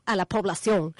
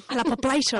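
First: Said in the usual way. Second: La population with French population; mock French.

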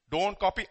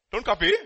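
First: Said in the usual way. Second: "Don't copy" said again, louder and firmer; louder repeat. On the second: Shown as a demonstration. Preacher repeating a warning to listeners, firm and loud. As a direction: repeat it firmly so they hear. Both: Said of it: "What did you say?".

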